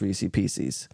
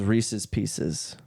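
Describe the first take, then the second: First: The first word has no final 's' sound. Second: The first word ends with an 's' sound. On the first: "when you put Reese's and Pieces together, it's Reese Pieces" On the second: "if you break Reese's in pieces up, right? It's just Reese's Pieces"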